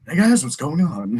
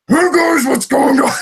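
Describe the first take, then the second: First: It is said in a calm, smooth voice. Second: It is said in a strong, gruff voice.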